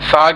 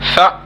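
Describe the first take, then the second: First: It is said smoothly and softly. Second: It is said with an abrupt jerk. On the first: The speaker calls it right. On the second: The speaker calls it wrong.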